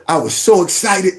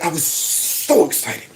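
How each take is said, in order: First: Said in the usual way. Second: Slow, softer tearful imitation; hammed-up fighting back tears; mock choked-up. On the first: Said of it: "You should be going". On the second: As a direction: drag it out like fake crying. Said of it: "But he's like".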